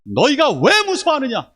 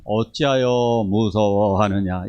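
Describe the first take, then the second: First: High and loud, a stern scolding voice; strong rebuke. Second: 어찌하여 무서워하느냐 drawn out slowly and gently; slow mild reading. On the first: Jesus scolding the fearful disciples, high and loud. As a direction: demand it of them, forcefully. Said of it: "이렇게 강하게 얘기하시는 겁니다". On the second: Preacher showing the mistaken gentle reading, slowed right down. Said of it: "이거 아니라고 말씀드렸어요". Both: Shown as a demonstration.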